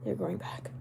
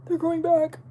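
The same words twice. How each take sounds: First: Low, hushed whisper; mock whisper. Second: High, louder put-on squeak; playful high voice. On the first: Streamer defending regrowing eyebrows in a mock whisper. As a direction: whisper it as a playful repeat. Repeats it hushed for comic effect. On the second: Streamer insisting on regrowing eyebrows in a silly high voice. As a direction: pitch it way up, playfully.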